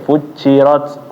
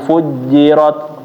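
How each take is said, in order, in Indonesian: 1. Konsonan di tengah terdengar mirip dengan ch. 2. Konsonan di tengah adalah bunyi j biasa. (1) "Sebelumnya hampir mirip-mirip kayak c"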